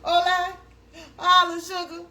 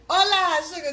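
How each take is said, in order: First: "Hola" again, high and loud, checking it; confirming Spanish greeting; Spanish hello. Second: Loud "Hola" said the Spanish way; tentative Spanish greeting; Spanish hello. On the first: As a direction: repeat the Spanish word. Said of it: "that's how you say it". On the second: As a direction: try out the Spanish word. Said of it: "that's how you pronounce it?". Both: Shown as a demonstration.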